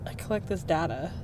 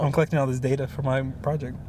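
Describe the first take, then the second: First: "data" said DAH-tuh within the sentence; open-vowel "data". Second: "data" said DAY-tuh within the sentence; American "data". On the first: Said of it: "Data or data?". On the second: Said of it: "It's data". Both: Shown as a demonstration.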